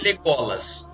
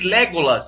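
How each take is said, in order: First: The stress is on the second syllable. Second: The stress is on the first syllable. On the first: The speaker calls it right. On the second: The speaker calls it wrong.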